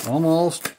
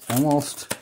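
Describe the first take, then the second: No difference in how they are said.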